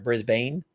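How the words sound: It is said with an American pronunciation.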